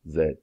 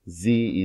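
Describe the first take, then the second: First: The letter is said the British way, zed. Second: The letter is said the American way, zee. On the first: "That's the way the English say it" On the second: "Z is the way Americans say this"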